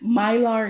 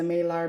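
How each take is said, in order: First: The first syllable sounds like 'my'. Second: The first syllable sounds like 'ma'. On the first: The speaker calls it right. "It's probably Mylar" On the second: The speaker calls it wrong. "I'm saying Malar"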